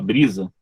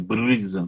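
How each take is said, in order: First: The word is said with a native accent. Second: The word is said with a foreign accent. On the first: This is how the word should be said. The speaker calls it right. "Que era para falar brisa" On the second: This is how the singer said it. The speaker calls it wrong. "ela fala brisa"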